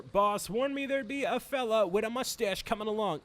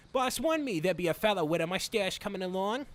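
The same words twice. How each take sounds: First: Put-on higher-pitched, unsure take on an Irish accent; put-on Irish henchman voice; attempted Irish accent. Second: Put-on henchman accent, possibly Irish; reworked attempt at an Irish accent; second-try accent. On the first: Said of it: "is that an Irish accent". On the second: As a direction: play a cartoon henchman with a would-be Irish accent. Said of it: "I think that's more so it".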